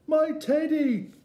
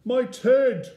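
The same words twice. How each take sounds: First: Put-on very high, loud child's cry; squealed high exclamation. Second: High, very loud startled cry; big high-pitched bear's gasp; shocked gasp. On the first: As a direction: cry out as an excited small boy. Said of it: "cried Eddie". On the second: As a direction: exclaim it in sudden shock. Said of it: "gasped the bear". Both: A narrator's reading.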